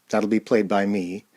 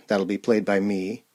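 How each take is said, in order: Both takes have the same delivery.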